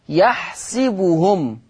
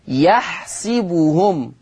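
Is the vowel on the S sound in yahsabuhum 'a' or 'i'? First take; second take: i; i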